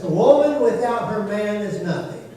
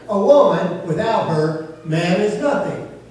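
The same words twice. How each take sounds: First: It is said without a pause inside. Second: It is said with a pause inside.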